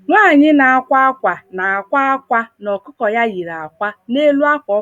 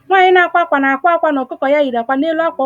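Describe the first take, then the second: First: The sentence is spoken at a slow careful pace. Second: The sentence is spoken at a quick natural pace. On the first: "I'll be slow this time around for your sake" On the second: "let me say it the way we say it"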